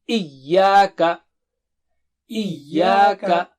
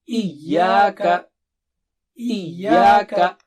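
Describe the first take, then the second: The two takes are said the same way.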